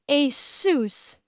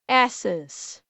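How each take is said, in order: First: It is said like the brand, ay-sus. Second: It is said like the word asses. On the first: The speaker calls it right. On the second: The speaker calls it wrong.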